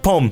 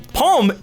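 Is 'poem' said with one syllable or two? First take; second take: one; two. First: The word is squeezed into one syllable. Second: The word is said with two syllables. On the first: The speaker calls it wrong. "One syllable would be like poem" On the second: The speaker calls it right. "Poem is how you say it"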